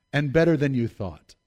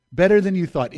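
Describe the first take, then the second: First: Said in the usual way. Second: "Better" punched louder and higher; emphatic repeat, leaning on "Better"; stress on better. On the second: Shown as a demonstration. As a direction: hit the word "Better" hard, then let the rest fall. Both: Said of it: "Emphasis on better".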